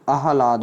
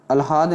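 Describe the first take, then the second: First: आह्लाद said "aa-ha-laad", h before l; correct pronunciation. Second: आह्लाद said "al-haad", l before h; wrong pronunciation. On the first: Teacher corrects students, आह्लाद as "aa-ha-laad". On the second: Teacher shows the error, आह्लाद as "al-haad". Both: Shown as a demonstration. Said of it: "आह्लाद नहीं होता मेरे भाई".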